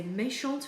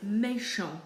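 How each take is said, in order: First: MÉCHANTE ending in a clear T; sounded T. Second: MÉCHANT ending on a nasal vowel; silent T. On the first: Teacher saying the word for a girl, sounded T. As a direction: say feminine MÉCHANTE as "may-shont". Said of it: "because it ends with an E". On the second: Teacher saying the word for a boy, silent T. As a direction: say masculine MÉCHANT as "may-shon". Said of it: "because it ends with a T". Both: Shown as a demonstration.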